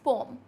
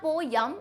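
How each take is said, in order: First: The vowels run together without a y glide. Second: A y glide joins the two vowels. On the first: The speaker calls it right. "It's पोम" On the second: The speaker calls it wrong. "So it's not पोयम"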